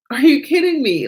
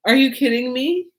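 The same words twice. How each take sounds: First: Higher, louder are you kidding me; excited disbelief. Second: Said in the usual way. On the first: Real, not acted. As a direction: repeat it with rising amazement.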